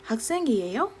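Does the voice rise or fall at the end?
rises. The voice rises at the end.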